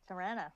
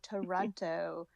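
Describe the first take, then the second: First: The second t is dropped, sounding like Tirana. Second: The second t is clearly pronounced. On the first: This is how locals say the city's name. "How do you say it?" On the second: This is how outsiders say the city's name. "Because you know we don't say Toronto"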